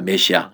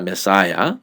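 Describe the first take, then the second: First: The middle vowel is 'i', as in me-si-a. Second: The middle vowel is 'ai', as in me-sai-ya.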